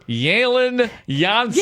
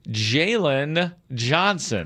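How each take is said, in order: First: The name starts with a soft Y sound. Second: The name starts with a hard J sound. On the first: The speaker calls it right. "a soft J, like yogging" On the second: The speaker calls it wrong. "Why are you saying it with the hard J"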